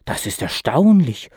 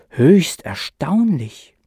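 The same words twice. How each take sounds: First: Said in the usual way. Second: "höchst erstaunlich" drawn out slowly, höchst lifted; stress on höchst. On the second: A narrator's reading. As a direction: lean into höchst, slow and marvelling. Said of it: "meinte schließlich".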